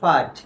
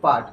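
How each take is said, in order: First: The word begins with a breathy, f-like sound. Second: The word begins with a plain p sound. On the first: The speaker calls it right. "পি এর উচ্চারণ কি? ফর মতো হয়" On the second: The speaker calls it wrong. "এটা আমরা উচ্চারণ করি কিন্তু পাঠ ... পাঠ হবে না"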